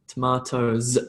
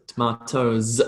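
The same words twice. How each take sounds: The two takes are said the same way.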